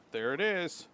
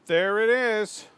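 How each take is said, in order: First: Said in the usual way. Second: Slow, high and loud triumphant call; triumphant shout. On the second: Real, not acted. Gamer finding the pickaxe location, slow loud triumphant shout. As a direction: stretch it out like you struck gold.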